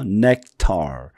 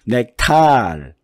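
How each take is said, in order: First: The final syllable has a reduced schwa vowel. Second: The final syllable has a full, clear vowel. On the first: The speaker calls it right. "어자가 됐으니까 중성모음이 되는 거예요" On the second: The speaker calls it wrong. "nectar 이렇게 안 하죠"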